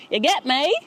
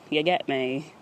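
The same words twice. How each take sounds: First: A much higher rising "You get me?" yelled playfully; mock loud hype. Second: Said in the usual way. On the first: Shown as a demonstration. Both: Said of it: "I'm mad loud".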